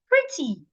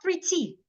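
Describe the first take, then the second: First: The stress is on the first syllable. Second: The stress is on the second syllable. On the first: The speaker calls it right. "So I'm going to stress the first part" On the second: The speaker calls it wrong.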